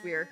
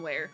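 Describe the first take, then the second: First: The word rhymes with here. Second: The word rhymes with there. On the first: The speaker calls it right. "But I've since learned it's weir" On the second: The speaker calls it wrong. "in my mind, for the past forever, it's been where"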